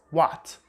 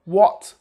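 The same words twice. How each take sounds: First: What with an open American A. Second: What with a rounded British vowel. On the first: Teacher contrasts with the American what. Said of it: "not like the Americans". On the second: Teacher models British what. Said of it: "this way". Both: Shown as a demonstration.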